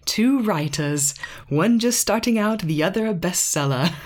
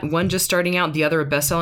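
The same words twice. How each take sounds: First: Put-on British accent. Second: Lightly imitating the other show's intro; quoting the podcast. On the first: Reading a podcast blurb to her husband in a mock British accent. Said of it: "have to be read with a British accent". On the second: Teasing quote of another podcast's intro line, lightly imitated. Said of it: "every time I hear that".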